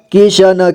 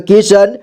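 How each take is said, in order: First: किशन as कि-श-न; syllable by syllable. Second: Said in the usual way. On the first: Shown as a demonstration. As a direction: sound out किशन ending "na". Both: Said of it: "एक ही बार में पढ़ेंगे".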